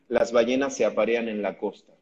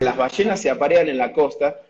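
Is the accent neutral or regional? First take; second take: neutral; regional. First: It is said in a neutral accent. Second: It is said in a regional accent. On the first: This is how documentaries say it. The speaker calls it right. "Muchas veces escuchamos un documental y dicen" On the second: This is not how documentaries say it. The speaker calls it wrong. "No dicen"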